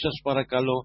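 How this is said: It is said harshly, like a barked order. It sounds like a general giving orders. The speaker calls it wrong. "όχι έτσι, σας στρατηγός"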